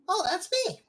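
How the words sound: It is said in Fizz's character voice.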